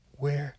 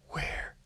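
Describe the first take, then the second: First: Said in the usual way. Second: Fearful whispered where; whispering. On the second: Acted. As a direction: breathe the word where in terror. Whispered repeat of question.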